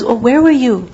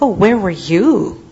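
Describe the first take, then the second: First: Said in the usual way. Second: Mocking retort, lower with swooping pitch; taunting. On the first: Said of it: "That if somebody says". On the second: Believer throwing someone's question back at them, taunting. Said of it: "someone who taunts excessively".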